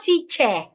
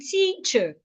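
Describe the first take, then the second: First: The ending is not the weak uh sound. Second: The ending is the weak uh sound. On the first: The speaker calls it wrong. "it's not teacher" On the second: The speaker calls it right. "As in teacher"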